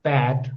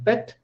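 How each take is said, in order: First: "pat" with a wide-open A, pitched low; low, open-vowel "pat"; more open vowel. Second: "Pet" with a short EH, higher in pitch; short, soft, high "Pet"; less open vowel. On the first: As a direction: drop the jaw on pat. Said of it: "my mouth is more open". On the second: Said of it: "then less open". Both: Shown as a demonstration.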